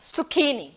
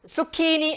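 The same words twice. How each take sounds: First: The middle consonant is a 'k' sound. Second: The middle consonant is a 'k' sound.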